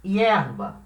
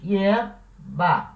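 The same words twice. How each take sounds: First: Said in the usual way. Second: Hierba broken in two, HIER, pause, BA; two separate beats for Hierba, with a gap before BA; split into syllables. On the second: Shown as a demonstration. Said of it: "A palavra hierba tem duas sílabas".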